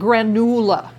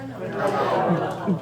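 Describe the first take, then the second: First: The middle vowel is an 'oo' sound. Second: The middle vowel is an 'oh' sound. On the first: This is the name its creator gave it. The speaker calls it right. "Doctor Jackson named it granula" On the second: This is how unfamiliar people say the name. The speaker calls it wrong. "how do you think they pronounce it?"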